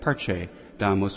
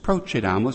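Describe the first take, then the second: First: The first syllable sounds like 'per'. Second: The first syllable sounds like 'pro'. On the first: It means something different. The speaker calls it wrong. "others merrily mispronounce the Latin" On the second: Let us go forth. The speaker calls it right. "It's procedamus"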